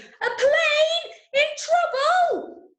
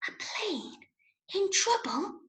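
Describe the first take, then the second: First: It is said very loudly. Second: It is said very quietly.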